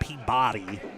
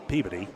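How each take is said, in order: First: The name is said with every syllable drawn out. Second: The name is said clipped, with syllables squeezed together. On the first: The speaker calls it wrong. "Don't say it like that. Don't be weird" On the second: The speaker calls it right. "With as few syllables as possible, please"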